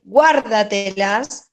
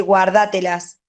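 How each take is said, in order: First: Guárdatelas stretched out slowly, stressed on GUÁR; guárdatelas as GUÁR-da-te-las, slow and deliberate; stress on first syllable. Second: Guárdatelas with the stress moved onto DÁ; guárdatelas stressed on the second syllable, quicker; wrongly shifted stress. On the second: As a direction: say guárdatelas as guar-DÁ-te-las, demonstrating the mistaken stress. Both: Shown as a demonstration. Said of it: "no puedo decir guárdatelas".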